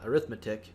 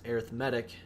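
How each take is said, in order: First: It is said the noun way. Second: It is said the adjective way. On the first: It names the subject. The speaker calls it wrong. "not arithmetic" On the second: It describes the sequence. The speaker calls it right. "the word is pronounced arithmetic"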